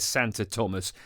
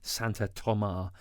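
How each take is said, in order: First: The name ends with an s sound. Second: The name ends on a vowel sound. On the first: It is read as an English speaker would read it. The speaker calls it wrong. "if you're English, it looks like it says Santa Thomas" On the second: It is an attempt at the local pronunciation. The speaker calls it right. "let's go with Santa Toma"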